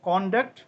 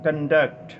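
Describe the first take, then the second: First: The stress is on the first syllable. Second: The stress is on the second syllable. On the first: The word is used as a noun meaning behaviour. "കോണ്ടക്ട് നൗണായിട്ട് ഉപയോഗിക്കുമ്പോൾ" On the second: The word is used as a verb meaning to organize. "വെർബായിട്ട് ഉപയോഗിക്കുമ്പോൾ ഈ വാക്ക് ഉച്ചരിക്കേണ്ടത് കണ്ടക്ട്"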